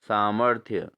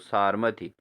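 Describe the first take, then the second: First: The r sound comes after the m. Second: The r sound comes before the m. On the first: The speaker calls it right. "इसका सही रूप है सामर्थ्य" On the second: The speaker calls it wrong. "सा सारमथ्य लिखा है"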